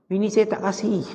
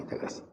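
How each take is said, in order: First: A lightly put-on husband voice, pitched higher, making the excuse; mock henpecked husband. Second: Breathy laughing echo, much softer; laughing repeat. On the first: Ustaz mimics the husband refusing a friend, sheepish put-on voice. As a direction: play a sheepish husband hiding behind his wife's "no". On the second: Real, not acted. Ustaz laughs as he echoes the husband's excuse, laughing softly. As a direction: chuckle the words out as you repeat them.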